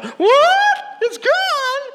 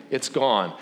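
First: Put-on very high, loud childish scream; hammed-up shriek of a shocked child; mock kid shriek. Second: Said in the usual way. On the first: Owner's kid in the background hears the news, mock shrieking. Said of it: "you hear her kid in the background".

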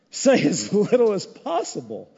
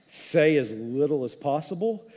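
First: "Say as little as possible" broken by a laugh; laughing repeat. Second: Said in the usual way. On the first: Shown as a demonstration. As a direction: chuckle through the advice. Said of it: "repeat with laugh". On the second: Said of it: "advice repeated later laughing".

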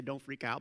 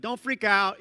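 First: "Don't freak out" murmured low and quiet, barely voiced; the way Jesus did not say it, low and soft; wrong soft version. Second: "Don't freak out" said louder and firm, stress on "freak"; Jesus calling over the waves, firm and loud; firm reassurance. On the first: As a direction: say "Don't freak out" as a limp, hushed aside. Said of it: "he doesn't say". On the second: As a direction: call out "Don't freak out" with conviction. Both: Shown as a demonstration.

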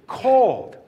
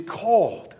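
First: CALLED pushed high and loud; stress on CALLED. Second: Said in the usual way. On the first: Real, not acted. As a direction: punch out CALLED on its own. Repeats word after "get this.

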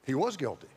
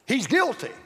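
First: Low, soft admission; sober concession. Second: Accusing courtroom declaration; pointed accusation. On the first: Real, not acted. Preacher admitting Satan's charge is true, sober and quiet. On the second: Acted. Satan accusing Joshua before the Lord, pointed and emphatic. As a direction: point the finger with "guilty". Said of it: "Satan points to Joshua and he says".

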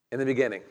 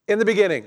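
First: Said in the usual way. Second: Loud, high proclamation of "In the beginning"; emphatic. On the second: Shown as a demonstration. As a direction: boom out "In the beginning". Preacher proclaims opening words.

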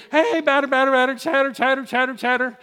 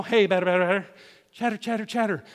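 First: Higher, singsong Little League chant; infield baseball chatter. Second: Little League chant, softly; infield baseball chatter. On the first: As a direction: call it out like a kid on the field. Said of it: "That's what you would do". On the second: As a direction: mimic the kids chanting from the field. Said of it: "You remember Little League Baseball?". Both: Retold or imitated.

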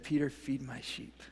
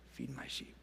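First: Said in the usual way. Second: Hushed breathy whisper, much softer. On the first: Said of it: "whispered repeat of the same words". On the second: Shown as a demonstration. Jesus charging Peter, whispered tenderly. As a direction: let it fall to a whisper. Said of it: "repeat after plain take".

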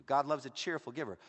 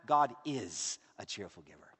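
First: Said in the usual way. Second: "is" leaned on, and the line dropped low; deep, emphatic "God is a cheerful giver"; stress on is. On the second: Shown as a demonstration. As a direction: land the word "is" as the point. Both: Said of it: "let me tell you something even better".

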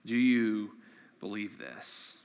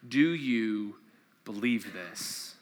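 First: Softer, almost breathed repeat; quiet echo of the question; fading question. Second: Soft, slow, searching question; slow hushed question to the congregation. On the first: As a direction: let it fall away into silence. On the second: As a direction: let the question hang quietly. Scripture question posed slowly. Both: Acted.

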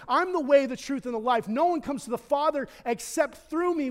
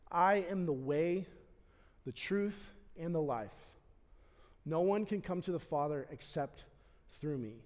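First: Loud, higher declaration of the verse; proclaimed scripture. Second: Quiet quoted scripture. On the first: Pastor proclaiming the verse to the congregation, loud and fervent. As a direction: declare it with full conviction. Quoting Jesus at climax. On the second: Pastor softly quoting Jesus to the congregation, reverent and quiet. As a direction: hush the room for the words. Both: Acted.

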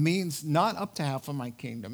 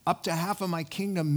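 First: "not" hit hard and held; stress on not. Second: Quoted idiom, weight on Up. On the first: Preacher explaining the idiom, stressing "not". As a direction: punch the word "not". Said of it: "It's an idiom that means". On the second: Preacher reading the king's idiom, stressing "Up". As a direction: read the idiom, leaning on "Up". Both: Shown as a demonstration.

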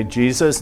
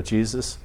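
First: Said in the usual way. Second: A hushed answer to the leader; quiet echo. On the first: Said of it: "You say". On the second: Retold or imitated. Person repeating the prayer leader, softly. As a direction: repeat the name back softly, much quieter. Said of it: "and they go".

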